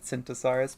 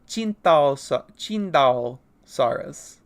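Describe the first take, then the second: First: The name begins with an 's' sound. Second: The name begins with a 'ch' sound. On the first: "I've been pronouncing it Cintosaurus" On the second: "I believe is how you are supposed to pronounce it"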